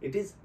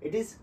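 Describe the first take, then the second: Both takes have the same delivery.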